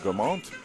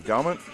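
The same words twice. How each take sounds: First: The name is said with a French accent. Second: The name is said with an English accent.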